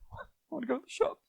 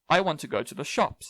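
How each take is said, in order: First: It is said in a sad tone. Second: It is said in a flat, neutral tone. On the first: "That's sad" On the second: "That's very neutral"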